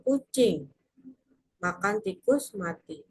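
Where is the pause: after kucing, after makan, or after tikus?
after kucing. There is a pause after kucing.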